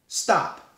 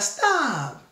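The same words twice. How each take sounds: First: It is said firmly and sternly. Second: It is said softly and playfully.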